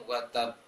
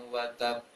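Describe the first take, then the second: The two takes are said the same way.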